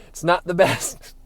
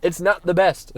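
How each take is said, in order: First: Drawn out slowly, leaning on not; slow, weighted repeat. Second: Said in the usual way. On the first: Shown as a demonstration. Repeating his verdict on the foods, slowly and deliberately. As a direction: say it again slowly, letting "not" sink in.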